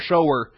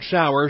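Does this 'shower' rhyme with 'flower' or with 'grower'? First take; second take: grower; flower. First: It rhymes with grower, like one who shows. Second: It rhymes with flower, like a rain shower. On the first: A person who shows something. The speaker calls it right. "the one who shows mercy" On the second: A spray of water for washing. The speaker calls it wrong. "not shower"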